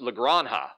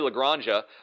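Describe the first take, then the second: First: The J sounds like an H. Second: The J sounds like an English J. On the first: The speaker calls it right. "apparently the J is an H, so it's Lagranja" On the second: The speaker calls it wrong. "I keep wanting to say Lagranja"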